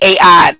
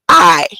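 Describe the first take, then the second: First: It is said as two separate syllables. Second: It is said as one single syllable. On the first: The speaker calls it wrong. "phonetically break it down and say A I" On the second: The speaker calls it right. "They pronounced it I"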